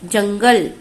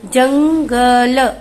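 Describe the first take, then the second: First: Said in the usual way. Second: 'jungle' slow, syllables apart, final vowel added; slow syllable reading. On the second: Shown as a demonstration. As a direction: spell out jungle slowly. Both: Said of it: "देखिए".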